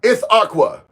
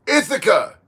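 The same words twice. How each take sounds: First: "Ithaqua" ending in KWUH; retry "Ithaqua" with an open AH and a KW sound; corrected name attempt. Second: ITHACA with an unstressed "-aca" ending, no W; attempted name pronunciation. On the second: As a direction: say "Ithaca" as ITH-uh-kuh. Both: Real, not acted. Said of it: "Did I mess your name up?".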